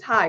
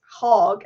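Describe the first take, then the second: First: The vowel is a flat 'a' as in hag. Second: The vowel is a rounded 'o' as in hog. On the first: This fits a spelling with one A. The speaker calls it right. "If it's H A G, it's Hag" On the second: This would fit a spelling with two A's. The speaker calls it wrong. "If it was Ten H A A G, it's Hog"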